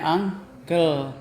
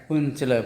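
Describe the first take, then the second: First: "uncle" said ANG-kel, slowly; correct pronunciation. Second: Uncle read as written, "Uncele", oon-che-le; spelling pronunciation. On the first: Teacher showing students how uncle is read, said ANG-kel. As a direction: draw out "uncle" as two beats, ang-kel. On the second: Teacher showing students the spelling of uncle, read as written. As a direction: say "Uncele" letter by letter, Indonesian-style. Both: Shown as a demonstration. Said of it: "bacanya uncle".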